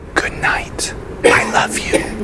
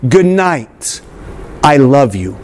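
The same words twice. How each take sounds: First: It is said very softly, almost whispered. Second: It is said louder, for the back rows.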